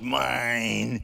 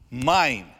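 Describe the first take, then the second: First: It is said in a demonic voice. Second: It is said in a normal voice.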